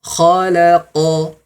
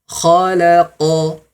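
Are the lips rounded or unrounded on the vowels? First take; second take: unrounded; unrounded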